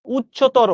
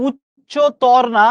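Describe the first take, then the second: First: উচ্চতর said crisply as the right form; clean, correct উচ্চতর; correct pronunciation. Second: উচ্চতর said slowly as the wrong version; slow, drawn-out wrong উচ্চতর. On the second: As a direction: drag out উচ্চতর to show the mistake. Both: Shown as a demonstration. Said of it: "এটার বাংলা কিন্তু উচ্চতর না".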